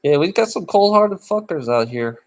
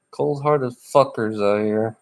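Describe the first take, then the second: First: Said in the usual way. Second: Chuckling through the words; laughing repeat. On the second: Retold or imitated. Repeating the phrase to chat, through a chuckle. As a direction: laugh as you echo the phrase.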